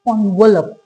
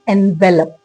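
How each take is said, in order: First: The word begins with an 'on' sound. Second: The word begins with an 'en' sound. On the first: The speaker calls it right. "इसका correct version क्या होता है?" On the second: The speaker calls it wrong. "ज्यादातर लोग इसको क्या पढ़ते हैं? ... दैट्स इनकरेक्ट।"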